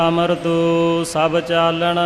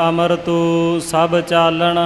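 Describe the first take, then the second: The two takes are said the same way.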